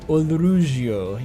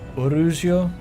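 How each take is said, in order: First: The name is said with an L sound. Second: The name is said without an L sound. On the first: "You want to get all the continents, consonants in there" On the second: "I feel like Orugio is a more Japanese pronunciation"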